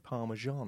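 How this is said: It is said with an American pronunciation.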